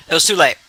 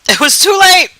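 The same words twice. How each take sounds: First: Said in the usual way. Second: "It was too late!" shouted higher and louder, stress on "late"; loud exclamation. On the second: Real, not acted. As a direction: blurt it out in real dismay. Repeats the phrase, then exclaims.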